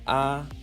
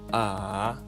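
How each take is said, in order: First: The pitch stays high and level. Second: The pitch dips low, then rises.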